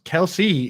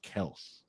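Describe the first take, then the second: First: The name is said as two syllables. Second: The name is said as one syllable. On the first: This is a nickname everyone uses. "Kelsey is a nickname that everyone calls all of us" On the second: This is the family's real pronunciation. "our name is pronounced Kels"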